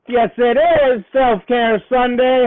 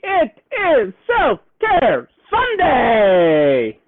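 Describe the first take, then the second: First: Said in the usual way. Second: Slow, stretched-out announcement of the day; drawn-out announcement. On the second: Pretend. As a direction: stretch "Self-Care Sunday" slowly like a show host. Livestream greeting, drawn-out announcement.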